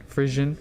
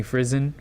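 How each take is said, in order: First: Frison said "FRIZH-un", questioning rise. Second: Frison said "FRIZ-un", with a buzzing z. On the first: Vlogger trying another guess at a surname, Frison with a zh sound. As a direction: say Frison with the zh of "vision". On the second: Vlogger guessing at an artist's surname, Frison with a z sound. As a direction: say Frison with a z in the middle. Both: Shown as a demonstration. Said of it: "don't know the correct pronunciation".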